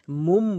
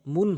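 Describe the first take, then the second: First: "মুম" ending in m instead of n; converted meem sound. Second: "মুন" ending in n; original noon sound. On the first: Teacher shows learners how it is recited, "মুম" with final m. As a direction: close the lips on the last M of "মুম". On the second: Teacher gives learners the original form, "মুন" with final n. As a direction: say "মুন" with the tongue closing on N. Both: Shown as a demonstration. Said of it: "মুম বলছি".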